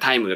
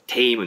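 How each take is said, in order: First: The vowel is pronounced like 'ai'. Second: The vowel is pronounced like 'ei'.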